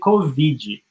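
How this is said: It is said with a Brazilian accent. "we say"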